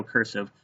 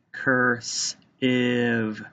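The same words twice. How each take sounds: First: Said in the usual way. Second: "Cursive" slowly as curs, pause, ive; split into syllables. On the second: Shown as a demonstration. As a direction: stretch "Cursive" into two separate syllables. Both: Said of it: "you have to tap out".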